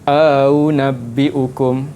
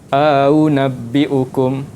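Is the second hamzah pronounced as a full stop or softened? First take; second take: softened; softened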